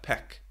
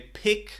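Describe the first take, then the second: First: The vowel is an 'eh' sound. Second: The vowel is an 'ih' sound.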